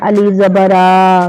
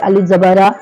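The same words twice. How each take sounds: First: The final vowel is stretched out long. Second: The final vowel is kept short. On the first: The short mark turns into a full long letter. The speaker calls it wrong. "अब इसको इस तरीक़े से नहीं पढ़ना है" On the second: The short mark keeps its own value. The speaker calls it right. "बल्कि इसको पढ़े"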